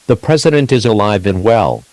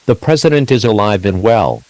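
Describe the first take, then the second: No difference in how they are said.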